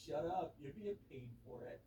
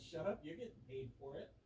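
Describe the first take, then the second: First: Slow, laid-back surfer-dude drawl; lightly voiced surfer dude. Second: Said in the usual way. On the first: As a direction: drawl it like a chill beach guy. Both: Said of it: "He was like some surfer dude".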